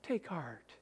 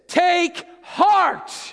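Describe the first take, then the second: First: It is said softly and without force. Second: It is said loudly and with force. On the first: The speaker calls it wrong. "So none of this, oh" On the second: The speaker calls it right. "I'm not going to yell at you"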